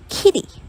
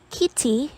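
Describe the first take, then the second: First: The middle consonant is a quick voiced flap. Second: The middle consonant is a clear voiceless t. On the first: "becomes kitty" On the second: "the word kitty uh"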